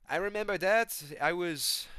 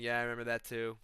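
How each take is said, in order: First: High, loud attempted impression; GSP. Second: Said in the usual way. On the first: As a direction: put on a raised fighter voice, then abandon it. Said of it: "G S P's like". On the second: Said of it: "I can't even do the voice anymore".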